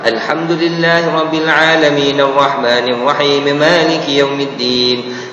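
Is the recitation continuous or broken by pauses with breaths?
continuous. It runs the phrases together without stopping. "dia baca secara wasal pun boleh juga"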